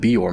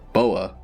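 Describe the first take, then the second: First: The name is said with two syllables, Bior. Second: The name is said as Boa, without the r. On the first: The speaker calls it right. "Surely you meant they have a stronghold in the Bior Mountains" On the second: The speaker calls it wrong. "Where did you even get Boa from Bior?"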